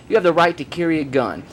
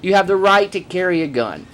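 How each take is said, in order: Both takes have the same delivery.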